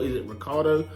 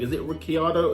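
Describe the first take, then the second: First: The 'i' after the 'ch' is silent. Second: The 'i' after the 'ch' is pronounced. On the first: "people say Ricardo" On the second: "I read Ricciardo"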